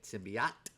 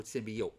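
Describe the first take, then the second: First: "Symbiote" with an open "ah" in the last syllable; symbiote ending "-ot". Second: "symbiote" rhyming its last syllable with "boat"; symbiote ending "-ote". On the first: Asking viewers which is right, "Symbiote" said SIM-bee-aht. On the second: Asking viewers about the alternative, "symbiote" said SIM-bee-oat. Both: Shown as a demonstration. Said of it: "How do you say it?".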